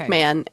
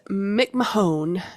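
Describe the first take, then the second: First: The last syllable sounds like 'man'. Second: The last syllable sounds like 'moan'. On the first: The speaker calls it right. "I trust you. I'll say" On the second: The speaker calls it wrong. "that's probably not how you say it, but that's how I'm saying it"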